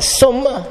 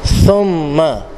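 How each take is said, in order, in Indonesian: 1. Dimulai dengan bunyi s biasa. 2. Dimulai dengan bunyi th yang lembut. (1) "Bukan summa" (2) "di hujung lidah"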